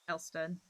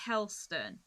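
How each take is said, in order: First: The word begins directly with a vowel, no H. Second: The word begins with a clear H sound. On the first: "if you're talking to a Cornish person, they'll be like" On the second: "is how it's supposed to be pronounced"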